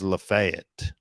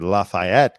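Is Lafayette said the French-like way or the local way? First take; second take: local; French-like. First: It is said the local way. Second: It is said the French-like way. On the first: The speaker calls it right. "it's pronounced" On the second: The speaker calls it wrong. "like the French, the Frenchman Lafayette. I was pronouncing it"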